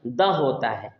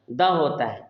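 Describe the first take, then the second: No difference in how they are said.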